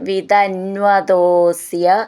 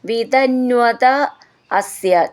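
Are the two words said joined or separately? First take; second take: joined; separately. First: The two words are merged into one form. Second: The two words are said separately, unmerged.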